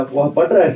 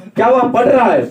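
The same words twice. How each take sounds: First: Said in the usual way. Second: "क्या वह पढ़ रहा है?" pitched higher and louder as a question; question intonation. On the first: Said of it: "सामान्य वाक्य है।". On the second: Shown as a demonstration. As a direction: ask it, lifting the whole line with "क्या" up front. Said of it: "प्रश्नवाचक आ गया". (प्रश्नवाचक अनुतान में ऊँचा और ज़ोर से)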